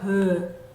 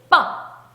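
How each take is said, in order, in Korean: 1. 아무 준비 없이 그냥 터져요. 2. 힘을 꽉 주고 울림 없이 터져요. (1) "한국말에 비읍이라고 배운 친구들은요. 그냥 브" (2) "이렇게 된소리 빠 요거랑은 또 다르죠"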